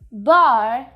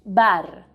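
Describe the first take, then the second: First: The final r is a soft English er sound. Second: The final r is a strong Spanish r. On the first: The speaker calls it wrong. "try to get rid of that er sound" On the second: The speaker calls it right. "Bar in Spanish"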